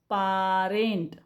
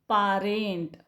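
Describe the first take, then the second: No difference in how they are said.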